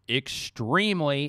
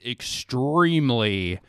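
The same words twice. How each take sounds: First: It is said in his normal voice. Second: It is said in a deep voice.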